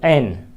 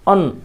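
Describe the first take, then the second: First: It is said with a strong, full vowel. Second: It is said with a weak, reduced vowel.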